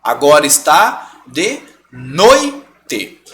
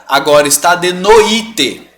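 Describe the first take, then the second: First: Slow, noite as "noi... te", oi glided together; correct syllable split. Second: Slow, noite as "no-Í-te"; misplaced accent on i. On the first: Teacher modelling the word, slow noite split noi... te. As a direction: pause inside noite, before te. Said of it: "É assim que eu falo a palavra". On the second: Teacher showing the mistake, noite stressed no-Í-te. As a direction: hit the i in noite as its own syllable. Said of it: "colocando um acento no i". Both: Shown as a demonstration.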